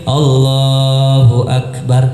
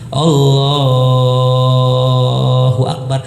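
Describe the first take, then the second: First: The phrase is said short and quick. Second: The phrase is drawn out long.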